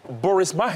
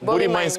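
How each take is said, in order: First: It is read the way an American would. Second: It is said with the local pronunciation. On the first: A reader going only by the spelling. The speaker calls it wrong. "pour un Américain qui voit ça, il va dire" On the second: The title as it is really meant. The speaker calls it right. "En fait, ça veut dire"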